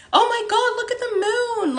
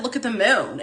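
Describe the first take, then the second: First: Much higher, excited squeal of wonder; amazed exclamation. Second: Said in the usual way. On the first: Retold or imitated. Crossing the street, she sees the full moon and squeals in wonder. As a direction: gasp it out at the sight of the moon. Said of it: "I literally said it out loud, just like that". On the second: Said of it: "And I was like".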